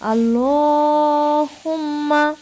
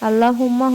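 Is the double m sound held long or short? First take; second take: long; short. First: The double m is held long and nasal. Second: The double m is short, without nasal hold. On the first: The speaker calls it right. "এভাবে বলবো আমরা। গুণা করবো" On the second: The speaker calls it wrong. "আল্লাহুম্মা হবে না"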